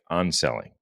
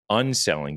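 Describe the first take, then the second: First: The first syllable sounds like 'on'. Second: The first syllable sounds like 'un'. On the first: This is how the word comes across to listeners. "it sounds like unselling. So this is the Canadian pronunciation" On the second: This is the word that is meant. "You're saying unselling"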